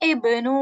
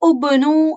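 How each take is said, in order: First: The word begins with an i vowel. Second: The word begins with an u vowel. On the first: The speaker calls it right. "விதிவிலக்குனால இப்னு அப்படின்னு நம்ம வந்து வாசிக்கணும்" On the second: The speaker calls it wrong. "நார்மலா வாசிப்போம்"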